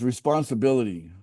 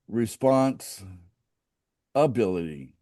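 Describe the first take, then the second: First: The word is said smoothly as one unit. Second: The word is split into two separate parts.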